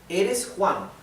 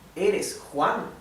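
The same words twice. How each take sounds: First: It is said as a statement, falling. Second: It is asked as a question, rising.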